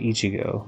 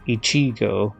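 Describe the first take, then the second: First: The stress falls on the first syllable. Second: The stress falls on a later syllable. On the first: The speaker calls it right. "you'd say Ichigo ... stress is usually in the front" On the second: The speaker calls it wrong. "you wouldn't say like Ichigo"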